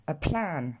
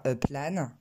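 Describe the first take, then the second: First: "a plan" with a puff of air after the p; p aspiré. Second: "a plan" with unaspirated p; French-accented "a plan"; prononciation française. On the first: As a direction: explode the p in English "a plan". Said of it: "mais on va dire". (« a plan » avec un p soufflé) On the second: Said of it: "on va pas dire". (« a plan » à la française, sans souffle) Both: Shown as a demonstration.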